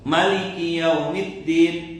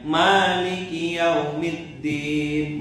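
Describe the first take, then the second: First: The first vowel 'ma' is short. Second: The first vowel 'ma' is long. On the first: This is a less common reading. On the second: This is the reading used in Indonesia.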